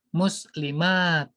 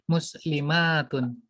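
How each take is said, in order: First: The word ends without a final vowel ending. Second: The word ends with the full vowel ending.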